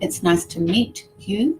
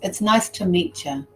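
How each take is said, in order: First: The t and y are said as separate sounds. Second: The t and y merge into a ch sound. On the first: "Am I saying" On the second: "T followed by you, changes the sound"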